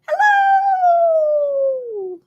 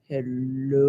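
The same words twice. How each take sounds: First: It is said in a very high voice. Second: It is said in a very low voice.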